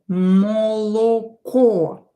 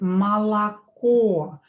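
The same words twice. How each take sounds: First: All three vowels sound like o. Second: The first two vowels sound like a. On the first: "we will write" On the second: "we'll pronounce it as молоко. This O and this O will be pronounced as A"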